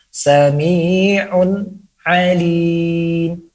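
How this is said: The voice stops abruptly between the two words. The speaker calls it wrong. "contoh yang salah ... seakan dia berhenti"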